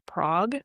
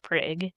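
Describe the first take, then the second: First: The name is said the standard way. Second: The name is said the local Oklahoma way. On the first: This is how it is supposed to be said. "probably is supposed to be pronounced Prague" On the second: This is how the locals say it. "but we're Oklahomans, so it's Prague"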